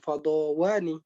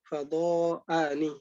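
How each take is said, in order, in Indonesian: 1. Bunyi w datang sebelum akhiran. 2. Hamzah datang sebelum akhiran. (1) "bukan fadhawani" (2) "tetap hamzahnya fadha'ani"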